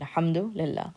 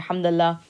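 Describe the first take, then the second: First: Every part of the words is pronounced fully. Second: The words are squeezed together into one. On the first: This is how it is said in formal Arabic. "when we pronounce it out completely" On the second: This is how it is said in dialect. "smushing the words together"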